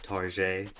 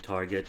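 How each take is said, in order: First: The word has an altered, joking pronunciation. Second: The word has its ordinary everyday pronunciation.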